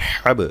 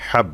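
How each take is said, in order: First: হাব with the b pushed and echoed; qalqalah. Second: হাব with the b left unpushed; no qalqalah. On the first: Teacher showing the second try with qalqalah, হাব bounced. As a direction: give the final b of হাব a bouncing push. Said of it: "এই যে কলকলা করলাম". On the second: Teacher showing a first try without the push, হাব stopped short. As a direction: end হাব on closed lips, no release. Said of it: "কলকলা করি নাই, অর্থাৎ ধাক্কা দিই নাই". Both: Shown as a demonstration.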